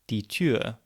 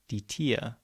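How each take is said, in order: First: The vowel is said with rounded lips. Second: The vowel is said with spread lips. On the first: This is the standard German form. "the example of die Tür" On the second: This is the Texas German form. "sometimes being pronounced as die Tier"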